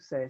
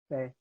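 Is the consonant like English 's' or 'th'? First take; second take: s; th. First: It begins with an 's' sound, Latin American style. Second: It begins with a 'th' sound, as in Spain.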